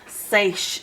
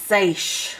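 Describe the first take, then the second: First: The vowel is a long 'ay' sound. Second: The vowel is a long 'ay' sound.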